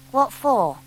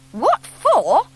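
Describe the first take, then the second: First: Said in the usual way. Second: High, rising indignant repeat; indignant echo. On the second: A narrator's reading. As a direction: throw the question back, amazed. Scout echoes the question, indignant.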